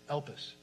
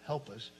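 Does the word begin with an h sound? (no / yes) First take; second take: no; yes. First: The word begins with no h sound. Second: The word begins with an h sound. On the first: The speaker calls it right. "it's Elpis, no H" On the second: The speaker calls it wrong. "It's not help us"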